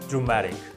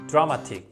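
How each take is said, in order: First: It is pronounced with a native English accent. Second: It is pronounced with a Korean-style accent. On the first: The speaker calls it right. "You are supposed to say dramatic" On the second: The speaker calls it wrong. "that's a Korean way to say"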